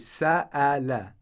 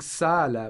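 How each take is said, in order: First: The middle glottal stop is strong. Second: The middle glottal stop is weak. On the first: The speaker calls it right. "the hamza is pronounced it's pronounced strongly" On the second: The speaker calls it wrong. "instead of saying"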